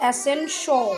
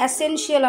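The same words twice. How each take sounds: First: "এসেনশিয়াল" ending in a short "shol" sound; the corrected way, ending on "shol"; corrected pronunciation. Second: "এসেনশিয়াল" with a full "shiyal" ending; the old wrong way, ending on "shiyal"; wrong pronunciation. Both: Shown as a demonstration. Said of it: "কিন্তু এটা হবে এসেনশিয়াল".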